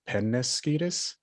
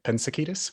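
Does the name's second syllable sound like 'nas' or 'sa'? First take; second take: nas; sa. First: The name is said as pe-nas-ki-tos. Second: The name is said as pen-sa-ki-tos. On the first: The speaker calls it right. "It's pronounced Rancho Penasquitos" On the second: The speaker calls it wrong. "not Pensaquitos"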